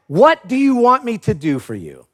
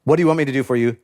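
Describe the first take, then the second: First: Said in the usual way. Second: Quiet, weighty question. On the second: Shown as a demonstration. Preacher repeating Jesus's key question, hushed and earnest. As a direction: lower and softer, letting "What do you want me to do for you?" land. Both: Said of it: "this is a really important statement".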